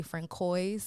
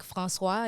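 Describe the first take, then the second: First: Francois misread as "fran-COYS"; hard K and sounded final s in Francois; Americanized mispronunciation. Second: Francois said the French way, "frahn-SWAH"; French pronunciation. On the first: Guest shows how Americans say it, Francois mispronounced as "fran-coys". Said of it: "they say". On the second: Guest gives example of a French name, Francois said correctly in French. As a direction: silent final s in Francois, ending "swah". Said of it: "you know, they say". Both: Shown as a demonstration.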